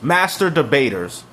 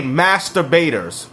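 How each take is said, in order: First: "Master debaters" split into two words; separated pun. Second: "masturbators" run together as one word; run-together pun. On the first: Spells out the pun just made. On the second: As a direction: say "masturbators" as a single word, punning. Pun on master debaters. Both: Shown as a demonstration.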